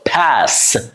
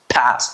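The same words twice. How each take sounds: First: The vowel is held long and stretched. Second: The vowel is short and clipped. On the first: The speaker calls it right. "I have to hold it, uh, it up for some seconds" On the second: The speaker calls it wrong. "I can't say pass"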